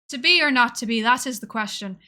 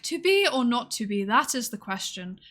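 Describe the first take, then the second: First: It is said in a West Country accent. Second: It is said in a posh English accent.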